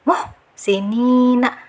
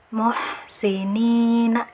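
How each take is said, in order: First: The h sound is stopped and held back. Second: The h sound flows with air and voice. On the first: The speaker calls it wrong. "itu yang keliru ya, jangan ditahan" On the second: The speaker calls it right. "ada angin sekaligus ada uh, suara yang mengalir"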